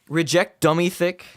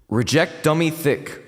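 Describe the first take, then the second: First: The voice sounds dry, with no added reverb. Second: The voice has reverb added, sounding echoey.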